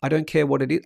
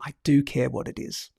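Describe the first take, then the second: First: Said in the usual way. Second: "do" stressed, falling away after it. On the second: Real, not acted. Host taking back what he said, stress on "do". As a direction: correct yourself by leaning on "do". Corrects his own slip.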